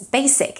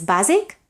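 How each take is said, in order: First: "basic" with a crisp voiceless S; English voiceless S. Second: "basic" with a voiced Z in the middle; Catalan-style voiced S. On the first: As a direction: keep the S in "basic" unvoiced. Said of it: "in English it's basic". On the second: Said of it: "in Catalan is basic". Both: Shown as a demonstration.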